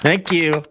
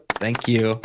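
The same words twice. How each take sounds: First: Louder, higher thank you, taking a bow; milk the applause; showman's thanks; proud thanks. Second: Said in the usual way. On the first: Real, not acted. Taking a bow after the joke.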